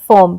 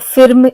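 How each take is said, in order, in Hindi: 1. स्वर सामान्य 'uh' जैसा होता है। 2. स्वर छोटे 'ih' जैसा होता है। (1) "बल्कि हम कहते हैं फॉर्म" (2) "ऐसे हम नहीं करते प्रोनाउंसिएशन"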